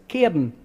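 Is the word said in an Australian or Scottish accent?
Scottish. It is said in a Scottish accent. "It is a Scots word, which means you pronounce it cairn"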